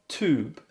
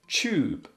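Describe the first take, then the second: First: It is said in an American accent. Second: It is said in a British accent.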